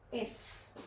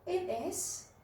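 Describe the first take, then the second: First: The words are merged into one short syllable. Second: Both words are said separately in full. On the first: "We can make it short like this" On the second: "The full sentence is it is"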